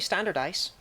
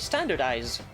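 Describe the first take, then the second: First: The last syllable is said with an s sound. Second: The last syllable is said with a z sound. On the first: The speaker calls it wrong. "you don't say standardize" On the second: The speaker calls it right. "You do pronounce it as a Z"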